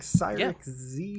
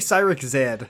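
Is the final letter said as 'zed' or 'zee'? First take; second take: zee; zed. First: The letter at the end is said 'zee'. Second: The letter at the end is said 'zed'.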